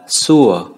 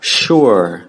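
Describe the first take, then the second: First: The word begins with a light s sound. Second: The word begins with a heavy sh sound. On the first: The speaker calls it wrong. "chứ không phải đọc là sure" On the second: The speaker calls it right. "Đọc là sure, ... đây là một âm S nặng"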